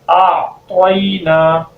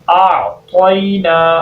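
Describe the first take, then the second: No difference in how they are said.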